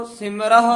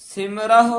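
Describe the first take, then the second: No difference in how they are said.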